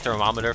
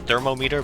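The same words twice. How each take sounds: First: It is said run together, not as parts. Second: It is said as two parts, thermo and meter. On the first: This is the everyday pronunciation. The speaker calls it wrong. "people say thermometer for some reason" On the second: The word is a compound of its parts. The speaker calls it right. "thermometer is thermometer"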